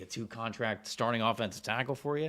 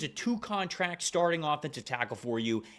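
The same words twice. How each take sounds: First: It is said offhandedly, without conviction. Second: It is said firmly, with conviction. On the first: The claim is tossed off lightly. The speaker calls it wrong. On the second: The claim is meant seriously. The speaker calls it right.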